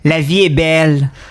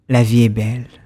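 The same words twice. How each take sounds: First: It is said in a plain, ordinary voice. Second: It is said in a smooth, suave voice.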